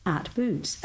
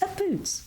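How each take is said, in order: First: Said in the usual way. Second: "Boots" pitched much higher; varied retake. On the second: Shown as a demonstration. Voice artist redoing a tag for the client, high-pitched "Boots". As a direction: lift "Boots" way up in a fresh take. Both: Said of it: "don't like the way she's saying".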